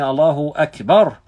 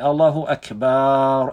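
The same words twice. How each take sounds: First: The vowel after the b is short. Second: The vowel after the b is drawn out long. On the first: God is the greatest. The speaker calls it right. "like this with one count on the back" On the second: It means drums. The speaker calls it wrong. "they elongate"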